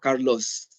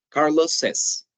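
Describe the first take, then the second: First: The name has no added syllable after it. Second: The name ends with an added 'iz' syllable. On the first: The speaker calls it wrong. "No digo Carlos" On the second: The speaker calls it right. "también voy a decir Carlos says"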